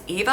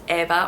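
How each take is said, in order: First: The name is said the American way. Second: The name is said the European way. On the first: "In the U S, it's pronounced as Eva a lot" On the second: "Over there, it would almost exclusively be pronounced Eva"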